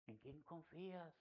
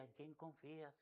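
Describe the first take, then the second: First: Much softer, slow "¿En quién confías?"; soft gentle question. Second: Much softer "¿En quién confías?", the wife's quiet reminder; soft gentle question. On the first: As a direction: ask it gently, almost under the breath. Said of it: "ella me decía". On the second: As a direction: murmur it tenderly. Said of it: "Y me decía ella". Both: Retold or imitated.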